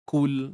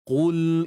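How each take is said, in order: First: The first consonant is light, like a k. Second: The first consonant is heavy, from the throat. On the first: The speaker calls it wrong. "Terbaca dengan kaf" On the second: The speaker calls it right. "Kita baca dengan qaf tebal"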